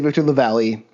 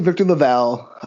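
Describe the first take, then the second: First: The surname ends like the word 'valley'. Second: The surname does not end like 'valley'. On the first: The speaker says it this way. "I say Victor LaValle ... pronounced like Valley" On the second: Other people say it this way. "some people say"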